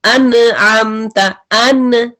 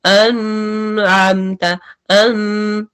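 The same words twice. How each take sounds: First: अनअमत with the न stopped abruptly; अनअमत read with full stop on न; hard noon. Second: अनअमत with the न drawn on softly; अनअमत read too soft, न continued; very soft noon. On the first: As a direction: snap the न in अन shut hard. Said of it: "अगर आप इसको शिद्दा से पढ़ते हैं". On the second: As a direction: let the न in अन flow on long. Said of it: "बहुत soft से पढ़ते हैं". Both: Shown as a demonstration.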